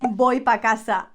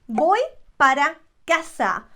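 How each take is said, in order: First: The word before casa is cut to one syllable. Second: The word before casa has two full syllables. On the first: "We shorten it" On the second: "instead of saying para"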